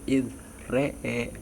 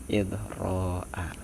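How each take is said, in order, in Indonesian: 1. Kedua vokal dibaca condong ke bunyi 'e'. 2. Kedua vokal tetap dibaca terbuka seperti 'a'. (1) "mengimalahkan ro dan Hamzah" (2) "tetap memfathahkan seperti mulanya"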